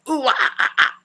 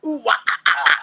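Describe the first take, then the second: First: Breathier rock wail sounds; metal wail second try. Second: Mock rock wail sounds; the nu-metal wah yell imitated. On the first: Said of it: "That's my best version". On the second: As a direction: belt out the metal scream riff. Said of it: "I can do that". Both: Shown as a demonstration.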